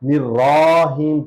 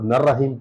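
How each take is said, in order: First: The first vowel is 'i', the 'ra' long. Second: The first vowel is 'a', the 'ra' short. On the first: "निर्राहीम पढ़ना भी गलत है, क्योंकि इस पर छोटा जबर है" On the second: "ये गलती होती है, अक्सर लोगों को नर्रहीम पढ़ते हैं"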